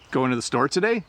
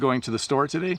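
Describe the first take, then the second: First: It is said with a question intonation. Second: It is said with a statement intonation. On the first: The speaker is asking about going to the store. "So one was a question" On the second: The speaker is stating a plan to go to the store. "the last one wasn't"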